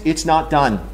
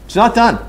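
First: Said in the usual way. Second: "It's not done." repeated higher and louder, weight on "done"; emphatic repeat. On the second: Real, not acted. Boss tells engineers the work is unfinished, louder and higher on "done". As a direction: slam the door on "done" with a louder, higher restatement.

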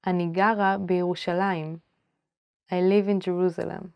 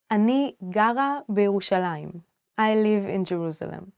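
The two takes are said the same way.

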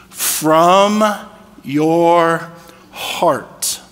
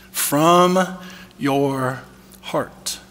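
First: From, your, heart spaced out one by one with long pauses; slow, each word set apart. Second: From your heart dropped to a near whisper, heart breathed unvoiced; hushed repeat. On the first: Preacher pointing the church to the verse, slow and deliberate. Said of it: "Look at this". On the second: Preacher repeating the verse to his listeners, hushed. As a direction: repeat it softly, almost whispered, to let it land. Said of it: "That's key". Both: Shown as a demonstration.

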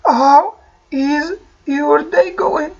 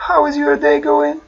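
First: Very slow teaching model; slow model phrase. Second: Said in the usual way. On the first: Shown as a demonstration. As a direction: stretch each word out. (ببطء شديد) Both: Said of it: "أعود أسأل".

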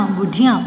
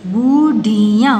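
First: Said in the usual way. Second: बुढ़िया slow, each syllable held. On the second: Shown as a demonstration. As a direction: sound out बुढ़िया in pieces. (बुढ़िया को तोड़-तोड़ कर, धीरे) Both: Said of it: "properly बोलना है".

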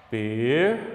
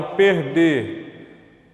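First: "Perder" split as per... der; syllable by syllable. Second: Said in the usual way. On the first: Shown as a demonstration. Teacher showing how perder separates, syllable by syllable. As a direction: hold per, pause, then say der apart. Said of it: "A palavrinha perder também separa". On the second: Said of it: "também separa".

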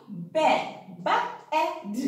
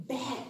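First: "Ba-ed" stretched into two parts; sounding out. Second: Said in the usual way. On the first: Shown as a demonstration. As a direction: split "Bed" slowly as "Ba-ed". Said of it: "circle the bed". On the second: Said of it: "the letters make words".

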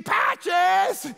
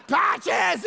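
First: High, loud yell for a lost dog; frantic call for Patches. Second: Loud yell, falling at the end; repeated shout for Patches; calling again. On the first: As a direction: shout the dog's name out the car window. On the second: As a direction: call the dog's name once more, dropping. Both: Retold or imitated.

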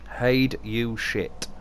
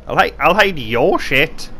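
First: Drawn out very slowly, weird tone; slow odd voice. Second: Said in the usual way. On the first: Real, not acted. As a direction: stretch "Hide you shit" out in a strange slow drawl. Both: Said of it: "why do I sound like that?".

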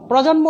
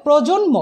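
First: প্রজন্ম as "prawjonmo"; common wrong vowel. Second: প্রজন্ম as "projonmo"; closed "o" after pr in প্রজন্ম; correct spoken vowel. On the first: Teacher shows the common mistake, প্রজন্ম with open "aw". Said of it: "অনেকে যারা ভুল বলেন". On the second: Teacher corrects the mistake, প্রজন্ম with closed "o". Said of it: "হবে". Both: Shown as a demonstration.

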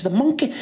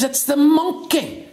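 First: MONKEY high, rising at the end; questioning echo. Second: MONKEY high and drawn out, falling at the end; excited announcement. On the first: Sergeant checking what the constable said, questioning echo. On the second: Constable spotting it for the sergeant, excited announcement. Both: Acted.

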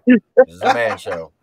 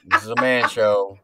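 First: Higher, louder mock-tough insistence; mock-macho declaration. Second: Said in the usual way. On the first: Teasing a choked-up friend about crying, mock-macho shout. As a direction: hammer it home, loud and raised, in jest. Teasing repeat, pushed much harder.

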